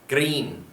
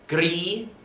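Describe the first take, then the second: First: The word ends with an n sound. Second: The word ends without an n sound. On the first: "or at the end on the end" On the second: "you can pronounce it as gris"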